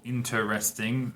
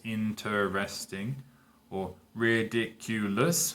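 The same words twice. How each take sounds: First: Said in the usual way. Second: Slowed for syllables. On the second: Shown as a demonstration. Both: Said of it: "that's four syllables".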